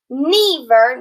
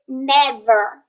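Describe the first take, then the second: First: The first vowel sounds long. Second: The first vowel sounds short. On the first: The speaker calls it wrong. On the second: The speaker calls it right. "it's never"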